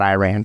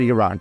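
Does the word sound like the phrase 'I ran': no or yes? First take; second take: yes; no. First: It sounds like the phrase 'I ran'. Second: It does not sound like 'I ran'. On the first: The speaker calls it wrong. "not Iran. ... Iran just doesn't make sense. I ran, I ran away" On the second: The speaker calls it right. "You pronounce it Iran"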